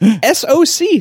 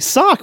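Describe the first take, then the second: First: Each letter is said separately. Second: It is said as one single syllable. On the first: "It's S-O-C" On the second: "start saying it like as like a one-syllable word"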